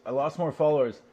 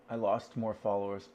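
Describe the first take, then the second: First: Lost more followers, said louder and higher; louder, higher repeat. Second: Said in the usual way. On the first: Shown as a demonstration. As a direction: punch it out the second time.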